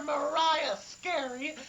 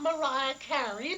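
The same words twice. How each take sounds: First: "Scary" with a clear sk at the start; Mariah Scary. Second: "Carey" with a plain k sound, no s; [name]. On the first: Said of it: "not [name]". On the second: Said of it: "I call her Mariah Scary". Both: Shown as a demonstration.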